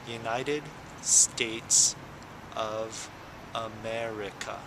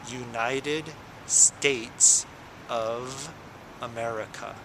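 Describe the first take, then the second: The two takes are said the same way.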